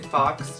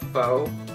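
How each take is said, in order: First: The word ends with a clear x sound. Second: The word ends in a vowel, no x sound. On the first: The speaker calls it wrong. "I always just say fox" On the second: The speaker calls it right. "It's like faux, like faux hawk"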